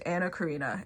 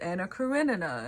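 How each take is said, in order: First: The surname is said with one syllable dropped. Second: The surname is said with all four syllables. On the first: The speaker calls it wrong. "my brain does not register the other syllable" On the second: The speaker calls it right. "it's Anna Karenina"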